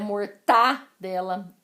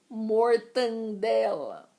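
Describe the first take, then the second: First: No extra nasal sound is added mid-word. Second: An extra nasal sound is added mid-word. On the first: The speaker calls it right. "o correto é mortadela" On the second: The speaker calls it wrong. "essas duas palavras são daquele tipo de palavra que dói no meu ouvido"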